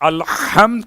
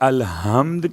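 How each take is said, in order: First: The h is a harsh throat sound. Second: The h is a soft plain sound. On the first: It means praise. The speaker calls it right. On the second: It means the opposite of praise. The speaker calls it wrong.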